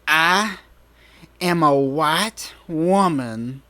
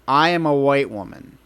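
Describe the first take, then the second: First: It is said with righteous indignation. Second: It is said plainly, without strong feeling.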